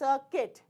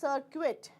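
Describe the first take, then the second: First: The U is silent, not sounded. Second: The U is sounded as a vowel. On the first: The speaker calls it right. "U is gone" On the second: The speaker calls it wrong. "it is not circuit"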